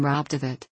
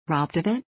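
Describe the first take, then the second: First: Said in the usual way. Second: "Robbed of it?" as an incredulous echo, rising at the end; rising inflection. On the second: A narrator's reading. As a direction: lift the end of "Robbed of it?" into a question. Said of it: "with a strong rising inflection".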